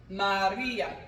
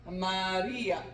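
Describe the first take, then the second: No difference in how they are said.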